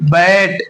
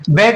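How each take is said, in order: First: The vowel is the open ऐ sound. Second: The vowel is not the open ऐ sound. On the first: The speaker calls it right. "Double मात्रा वाला पढ़ेंगे ए" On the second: The speaker calls it wrong. "बैट नहीं"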